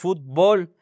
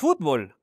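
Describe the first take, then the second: First: The stress is on the last syllable. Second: The stress is on the first syllable. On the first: This is how it is said in Mexico. "decimos fútbol; fútbol sin acento" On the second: This is how it is said outside Mexico. "en México no decimos fútbol"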